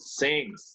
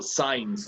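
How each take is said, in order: First: It sounds like since, with a short vowel. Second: It sounds like signs, with a long vowel. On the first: The speaker calls it right. "That's the correct one" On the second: The speaker calls it wrong. "That's how you're not supposed to pronounce it"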